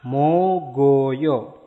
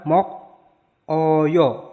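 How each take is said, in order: First: The final consonant links onto the next vowel. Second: The final k stays separate from the next vowel. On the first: The speaker calls it right. "tapi mo go yo" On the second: The speaker calls it wrong. "Bukan mok oyo"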